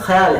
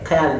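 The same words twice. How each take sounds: First: It begins with a raspy throat fricative. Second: It begins with an aspirated k stop. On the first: The speaker calls it right. "यहाँ पर ख्याल है" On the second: The speaker calls it wrong. "ख्याल नहीं है"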